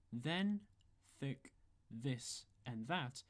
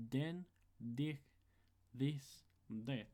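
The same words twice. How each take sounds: First: Said in the usual way. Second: "den, dich, this, and that" each opened with a hard D; TH becomes D. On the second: Shown as a demonstration. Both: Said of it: "then become".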